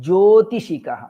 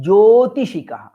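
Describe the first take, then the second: Both takes have the same delivery.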